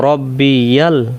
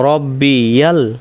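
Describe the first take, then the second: The two takes are said the same way.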